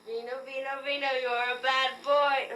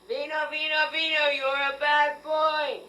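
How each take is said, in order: First: The scolding sounds half-hearted and unconvincing. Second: The scolding sounds firm, as if meant.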